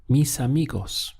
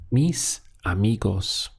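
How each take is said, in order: First: Said in the usual way. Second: "mis amigos" with a clear gap after mis; "mis ... amigos", measured, each word on its own. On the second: Shown as a demonstration. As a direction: separate mis from amigos for a learner. Teacher models phrase word by word.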